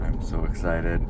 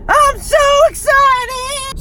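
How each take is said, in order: First: Said in the usual way. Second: Very high, loud, drawn-out squeal; hammed-up excitement. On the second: Vlogger to camera before the sales, hammed-up excited squeal. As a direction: squeal it slowly in over-the-top excitement. Repeats the words in exaggerated excitement.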